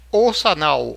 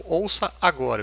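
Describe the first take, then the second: First: "Ouça anal" with agora slurred so it sounds like anal; slurred pun. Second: Said in the usual way. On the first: Shown as a demonstration. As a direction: say "Ouça anal" loud and fast so agora blurs into anal. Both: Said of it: "Eu disse ouça anal, não anal".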